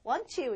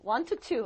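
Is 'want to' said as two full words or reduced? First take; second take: reduced; full. First: The words are blended into one reduced form. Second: Both words are pronounced fully and separately. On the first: The speaker calls it right. "want to 이러죠" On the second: The speaker calls it wrong. "이거 want to라고 하는 사람 없죠"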